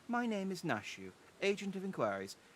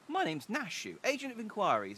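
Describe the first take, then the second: First: It is read in a dour, subdued voice. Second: It is read in an upbeat, lively voice. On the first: The speaker calls it wrong. "I thought she was a bit more dour with the voice" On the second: The speaker calls it right. "I'm thinking she's maybe a bit more, uh, bit more upbeat"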